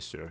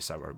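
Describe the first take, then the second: First: It is said with a Scottish pronunciation. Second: It is said with an English pronunciation. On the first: "we would say sour" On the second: "We wouldn't say sour"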